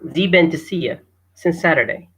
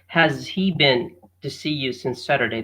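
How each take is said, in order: First: Has he blends into one short syllable. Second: Each word is pronounced fully and separately. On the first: "So let me try reading it" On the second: "That's the way we we uh, read it"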